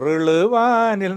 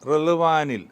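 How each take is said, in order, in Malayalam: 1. ഈ വാക്ക് രണ്ട് വ്യത്യസ്ത ഭാഗങ്ങളായി വേർതിരിച്ചാണ് പറയുന്നത്. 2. ഈ വാക്ക് ഒരു ബന്ധിത യൂണിറ്റായി പറയുന്നു. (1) "എന്ന് പാടിയ തെറ്റി" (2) "ഒരു വാക്കാണത്"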